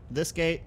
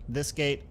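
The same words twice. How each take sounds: The two takes are said the same way.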